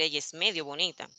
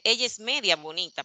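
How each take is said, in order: First: "medio" with final o; correct form. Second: "media" with final a; wrong form. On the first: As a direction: say "medio" ending in o. ("medio" con o final) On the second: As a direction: stress the a in "media". ("media" con a final) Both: Shown as a demonstration. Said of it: "por decir".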